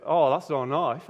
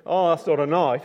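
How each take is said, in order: First: Aussie, amused and unbothered; Australian accent. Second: Aussie, scoffing at the little blade; Australian, louder and amused; Australian accent. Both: Retold or imitated. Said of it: "that's how they speak in Australia".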